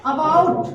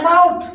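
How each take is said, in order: First: "About" starting with an open "a", a-baut; correct pronunciation. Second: "about" starting with an "e" sound, e-baut; wrong pronunciation. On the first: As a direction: say "About" as अ-बाउट, never e-baut. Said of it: "क्या पढ़ना है?". ("About" का सही उच्चारण, अ से शुरू) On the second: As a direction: mispronounce "about" as ए-बाउट. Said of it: "ये about नहीं पढ़ना है". ("about" का गलत उच्चारण, ए से शुरू) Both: Shown as a demonstration.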